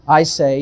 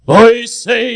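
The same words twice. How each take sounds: First: It is said in a plain, everyday speaking voice. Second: It is said in a tremulous, solemn preaching voice.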